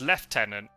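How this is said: It is said with a British pronunciation. "in the version it's Lieutenant"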